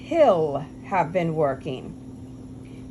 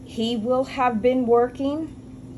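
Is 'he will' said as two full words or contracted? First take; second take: contracted; full. First: He and will are joined into one syllable. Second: He and will are said as two full words.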